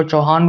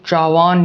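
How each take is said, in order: First: चौहान said as chau-haan with a clear h; चौहान spoken chau-haan, h sounded; चौहान with a distinct h; alternate name form. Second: चौहान said as chaavaan, no h; चौहान as chaavan; first name form. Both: Shown as a demonstration. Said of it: "जिनको चौहान भी बोलते हैं".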